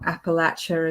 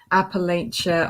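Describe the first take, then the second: First: The name is said the local way. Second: The name is said the non-local way.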